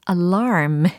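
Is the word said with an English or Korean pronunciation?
English. It is said with English stress and r-colouring. The speaker calls it right. "alarm 이게 되겠습니다"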